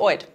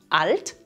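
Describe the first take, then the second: First: The L is replaced by an oi vowel. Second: The L is clearly pronounced after the vowel. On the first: "wird zu" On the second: "wird zu"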